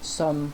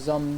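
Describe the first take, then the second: First: The word begins with an S sound. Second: The word begins with a Z sound. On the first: "instead of some" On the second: "you pronounce it like a Z"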